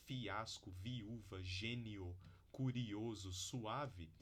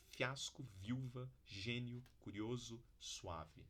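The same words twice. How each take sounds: First: Fiasco, viúva, gênio, curioso, suave with vowels in separate syllables; hiatus. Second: Viúva said as viuva in one syllable, fiasco as fyasco; rising diphthong. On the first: Teacher showing the careful hiatus, syllable by syllable. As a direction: split each vowel pair in two. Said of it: "tradicionais hiatos". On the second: Teacher showing natural connected speech, rising diphthongs. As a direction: run the vowels together into one syllable. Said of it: "pronunciados como ditongo". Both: Shown as a demonstration.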